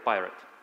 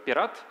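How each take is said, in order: First: It is said with an English pronunciation. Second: It is said with a Russian pronunciation. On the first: "but in English, it's like a" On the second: "in Russian, we pronounce it"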